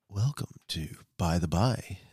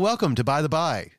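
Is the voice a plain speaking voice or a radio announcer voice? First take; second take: radio announcer; plain. First: It is said in a put-on radio announcer voice. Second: It is said in an ordinary conversational voice. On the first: The speaker calls it right. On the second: The speaker calls it wrong.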